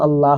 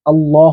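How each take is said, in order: First: "আল্লাহ" said as "al-LAAH", open vowel; light "Allah". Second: "আল্লাহ" said as "al-LAWH", rounded vowel; heavy "Allah". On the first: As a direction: say "আল্লাহ" with a thin, light "laa". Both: Shown as a demonstration. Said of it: "কখন লা হবে, কখন ল হবে".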